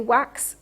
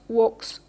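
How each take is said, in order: First: The vowel is said with unrounded lips. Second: The vowel is said with rounded lips. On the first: The speaker calls it right. "you say wax" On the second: The speaker calls it wrong. "and not walks"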